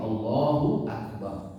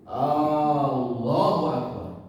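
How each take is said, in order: First: The opening vowel is short and joined smoothly. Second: The opening vowel is stretched out long. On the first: The speaker calls it right. "dibacakan dengan digabungkan" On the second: The speaker calls it wrong. "memperpanjang bacaan hamzahnya"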